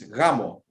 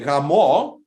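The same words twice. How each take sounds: First: The stress is on the first syllable. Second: The stress is on the second syllable. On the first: It means wedding. "you put the emphasis on the A" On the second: It means having sex. "If you say Ramo, it's what you do on the night of the wedding"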